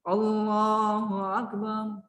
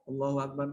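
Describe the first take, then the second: First: It is said more loudly and forcefully. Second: It is said at a softer, normal volume.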